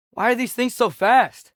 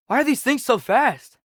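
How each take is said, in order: Both takes have the same delivery.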